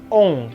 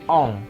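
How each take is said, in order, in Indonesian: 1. Vokal sengau diucapkan lebih tinggi dan lebih sempit. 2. Vokal sengau diucapkan lebih rendah dan lebih terbuka. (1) "bukan ong" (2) "ong ke bawah ya"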